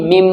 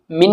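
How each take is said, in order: First: "मिम" with a hummed final m; n changed to m. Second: Said in the usual way. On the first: Shown as a demonstration. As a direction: close "मिम" on a held m. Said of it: "मिन नहीं". ("मिम" का मीम गुन्ने के साथ) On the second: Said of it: "नहीं".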